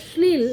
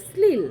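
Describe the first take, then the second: First: শ্লীল with a clear palatal sh at the start, shl-eel; palatal sh sound. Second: শ্লীল with a dental s at the start, sleel; dental s sound. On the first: Teacher shows students the correct শ্লীল, careful palatal sh. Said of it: "যেটা উচ্চারণ হয়তো হওয়া হয়তো উচিত ছিল শ্লীল". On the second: Teacher shows students how Bengalis say শ্লীল, dental s. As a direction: say শ্লীল the everyday Bengali way, s not sh. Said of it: "বাঙালিদের উচ্চারণ বৈশিষ্ট্যে সেটা হয়ে যাচ্ছে". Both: Shown as a demonstration.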